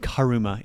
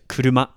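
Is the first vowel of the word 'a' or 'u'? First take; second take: a; u. First: The first vowel sounds like 'a'. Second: The first vowel sounds like 'u'. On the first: The speaker calls it wrong. "Don't say karuma" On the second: The speaker calls it right. "It's a kuruma"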